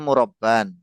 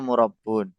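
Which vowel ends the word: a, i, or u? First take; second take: a; u. First: The word ends with an -an sound. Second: The word ends with an -un sound. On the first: "yang pertama antum bilangnya murabban" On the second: "Terus yang kedua murabbun"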